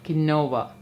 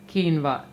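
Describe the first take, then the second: First: The word is said the way it is spelled. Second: The word is said differently from its spelling. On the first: The speaker calls it wrong. "not quinoa" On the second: The speaker calls it right. "it is pronounced as quinoa"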